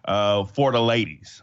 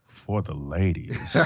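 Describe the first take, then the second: First: The phrase is said in a plain speaking voice. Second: The phrase is crooned like a smooth singer. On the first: The speaker calls it wrong. "I didn't even say that right" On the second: The speaker calls it right. "Let me say it like the R&B singers just said in the 90s"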